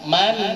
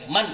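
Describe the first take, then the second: First: The final n fades gently with slight nasal hum. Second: The final n is cut off abruptly. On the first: The speaker calls it right. "ngeremnya agak agak pelan. Man, man ada n-nya tapi sedikit" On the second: The speaker calls it wrong. "tidak boleh seperti sampean ngerem motor pakai cakram itu, nabrak. Jadi man itu tidak boleh"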